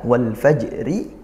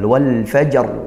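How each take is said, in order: First: The final r is followed by a short vowel. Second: The phrase stops on the final r consonant. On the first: This is the word's original form. "aslinya dia hidup berharokat" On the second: The reader pauses at the end of the verse. "maka jadi disukunkan"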